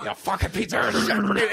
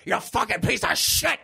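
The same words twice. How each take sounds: First: Higher, hammed-up snarl stretched out; milk it like a melodramatic death scene; overdramatic cop line. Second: Higher, hammed-up snarl on shit, rising at the end; overdramatic cop line. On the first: Cop on the floor cursing the killer, over-dramatized again. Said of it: "way over dramatizing it". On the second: Cop on the floor cursing the killer, over-dramatized snarl. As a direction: overact it like a bad B-movie death scene. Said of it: "in the full range that he says it".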